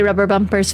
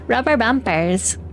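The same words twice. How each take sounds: First: Said in the usual way. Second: Put-on slow Highlands-accented "Rubber bumpers"; mock-demonstrating the funny Highlands pronunciation; imitated Highlands accent. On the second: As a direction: say it slowly in a playful Highlands accent. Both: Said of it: "they say rubber bumpers funny".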